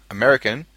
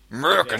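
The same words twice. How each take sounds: First: Said in the usual way. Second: American squashed into "Murrkan"; American run together in two syllables; slurred pronunciation. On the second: Shown as a demonstration. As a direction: say American as "Murican", first vowel swallowed. Repeats word in slurred form.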